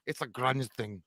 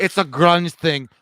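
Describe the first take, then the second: First: Said in the usual way. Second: Quoting Mark Dorman. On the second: Retold or imitated. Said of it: "Mark Dorman says".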